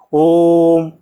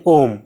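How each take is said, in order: First: ओम with the vowel held long and slow; drawn-out Om. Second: Said in the usual way. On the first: Shown as a demonstration. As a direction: stretch the ओ in ओम, taking extra time. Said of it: "इसमें जो है time हम ज़्यादा देंगे, ओम ऐसे बोलेंगे". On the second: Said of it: "ऐसे नहीं बोल देंगे ओम".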